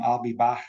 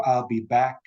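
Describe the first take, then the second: First: "back" ending in a throaty fricative, Liverpool style; Scouse "I'll be back", the k scraped into a throat sound; broad Liverpool "back" with a velar fricative; Liverpool accent. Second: Said in the usual way. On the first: Shown as a demonstration. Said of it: "would become".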